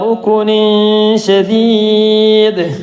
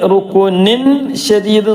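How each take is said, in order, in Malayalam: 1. n ശബ്ദം മറഞ്ഞിരിക്കുന്നു, പകുതി മാത്രമേ ഉച്ചരിക്കുന്നുള്ളൂ. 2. n ശബ്ദം വ്യക്തമായും പൂർണ്ണമായും ഉച്ചരിക്കുന്നു. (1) "പറയാത്ത രൂപത്തിൽ ഇടയിലായിട്ട് പറയാം" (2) "റുക്കുനിൻ ഷദീദ് എന്ന് പറയുന്നത് ഒഴിവാക്കിയിട്ടും"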